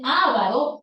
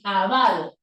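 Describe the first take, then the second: First: The stress is on the first syllable. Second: The stress is on the second syllable. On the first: The speaker calls it wrong. "escribirla como esdrújula y decir ávaro y colocar tilde en la primera A" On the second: The speaker calls it right. "como si fuera una palabra grave, así"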